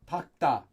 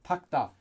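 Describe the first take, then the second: The two takes are said the same way.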